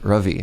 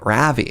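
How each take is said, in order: First: The name is said with its native first vowel. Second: The name is said with an English-style first vowel. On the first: The speaker calls it right. "my name is Ravi" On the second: The speaker calls it wrong. "you're pronouncing my name Ravi"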